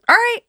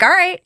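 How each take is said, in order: First: High, casual okay; nonchalant. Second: Mock casual okay again, up high; nonchalant. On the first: Retold or imitated. Boyfriend agreeing to move, real nonchalant. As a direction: toss it off like it's nothing. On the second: Retelling boyfriend's easy answer, nonchalant. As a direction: shrug it off lightly. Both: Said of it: "Real nonchalant".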